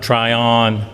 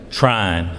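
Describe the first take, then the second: First: The name is said as two syllables. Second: The name is said as one syllable. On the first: The speaker calls it wrong. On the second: The speaker calls it right. "we pronounce that one syllable now"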